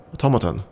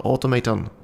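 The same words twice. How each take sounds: First: "Automaton" said as aw-TOM-uh-ton; corrected pronunciation. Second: "automaton" said as auto-MAY-ton; mistaken pronunciation. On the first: Reader correcting herself, "Automaton" as aw-TOM-uh-ton. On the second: Reader stumbling over a word, "automaton" as auto-MAY-ton. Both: Real, not acted. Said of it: "Yeah, there we go, automaton".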